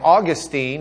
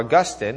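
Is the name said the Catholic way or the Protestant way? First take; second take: Protestant; Catholic. First: The name is said in the Protestant way. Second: The name is said in the Catholic way. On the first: This is how Protestants say the name. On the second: This is how Catholics say the name.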